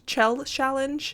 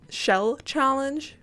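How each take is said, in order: First: The first word begins with a 'ch' sound. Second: The first word begins with an 'sh' sound. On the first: The speaker calls it wrong. "I keep saying chell" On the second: The speaker calls it right. "saying shell challenge correctly"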